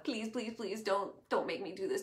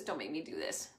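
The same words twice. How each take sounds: First: Pleading. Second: Softer, lower begging repeat; quieter pleading. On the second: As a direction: let the plea fade down. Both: Acted. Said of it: "Moses pleads with God".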